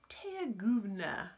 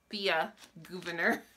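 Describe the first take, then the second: First: The name is run together, sounding like Teaguvna. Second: The name is said in full, as Thea Governor. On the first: This is the pronunciation someone else suggested. "they were like, it's Teaguvna, something like that" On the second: This is the way most people say it. "I think we all say Thea Governor"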